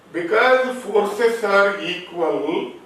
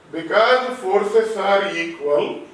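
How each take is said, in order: Both takes have the same delivery.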